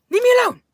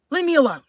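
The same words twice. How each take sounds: First: Squealed, much higher whine; high mock-hurt plea. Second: Higher, mildly whiny protest; mock-hurt plea. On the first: Streamer fending off a teasing viewer, squealing mock protest. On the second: Streamer fending off a teasing viewer, mildly mock-hurt. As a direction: play wounded, pitched up a little.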